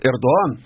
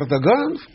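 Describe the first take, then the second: First: The name is said without a g sound. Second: The name is said with a g sound.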